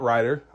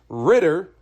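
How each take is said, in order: First: The first vowel is long, as in 'ride'. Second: The first vowel is short, as in 'rid'. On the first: The speaker calls it wrong. "not Ryder. I said that wrong" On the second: The speaker calls it right. "It is Ritter"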